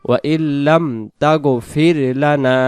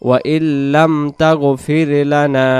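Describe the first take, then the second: Both takes have the same delivery.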